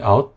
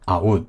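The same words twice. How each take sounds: First: The vowel glides within a single syllable. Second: The vowel is split into two clear syllables. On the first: The speaker calls it right. "실제 발음을 찾아보면은 lie, boy, out 다 그냥 이름절" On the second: The speaker calls it wrong. "콩글리시 발음으로 하면은 이음절로 생각하고 되게 분명한 이음절로"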